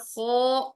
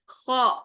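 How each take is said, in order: First: The vowel after kh is a rounded o. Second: The vowel after kh is an open a. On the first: The speaker calls it wrong. "ख्वा और खो ये गलत है" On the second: The speaker calls it right. "खौ आ की साउंड में"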